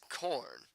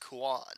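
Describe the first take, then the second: First: The name is said with an American accent. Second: The name is said with a Japanese accent. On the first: "that's in an American accent" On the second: "In the Japanese, Japanese way"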